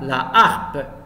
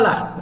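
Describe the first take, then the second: First: The article's vowel is kept and said separately. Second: The article's vowel is dropped and joined on. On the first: The speaker calls it right. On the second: The speaker calls it wrong.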